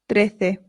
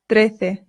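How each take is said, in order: No difference in how they are said.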